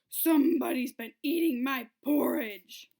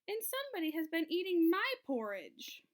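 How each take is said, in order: First: It is said in a great big voice. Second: It is said in a medium-sized voice.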